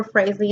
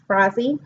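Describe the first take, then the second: First: Frazee said as FRAYZ-lee; alternative pronunciation attempt. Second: Frazee said as FRAH-zee; first pronunciation attempt. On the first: Reviewer correcting herself on the author's surname, Frazee as FRAYZ-lee. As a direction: say Frazee with "ay" and a slipped-in L. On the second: Reviewer unsure of the author's surname, trying Frazee as FRAH-zee. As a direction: say Frazee with an open "ah" in the first syllable. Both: Shown as a demonstration. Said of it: "not pronouncing that right".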